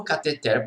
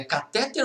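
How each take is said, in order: First: "cateter" stressed on final syllable, ca-te-TER; tônica na última. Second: "catéter" stressed on middle syllable, ca-TÉ-ter; tônica na penúltima. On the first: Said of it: "a sílaba tônica é a última". ("cateter" com a tônica no TER final) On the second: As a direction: hit TÉ in "catéter". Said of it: "Como que é o nome daquilo?". ("catéter" com a tônica no TÉ) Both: Shown as a demonstration.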